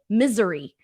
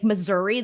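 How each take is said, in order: First: It is said so it sounds like misery. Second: It is said with the standard vowels of Missouri. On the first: The speaker calls it wrong. "I would always say misery" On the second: The speaker calls it right. "like the place"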